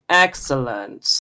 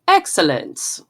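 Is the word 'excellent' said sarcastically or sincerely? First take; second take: sarcastic; sincere. First: It is said in a sarcastic tone. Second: It is said in a plain, sincere tone. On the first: The speaker is not pleased at all. The speaker calls it right. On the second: The speaker is genuinely pleased. The speaker calls it wrong.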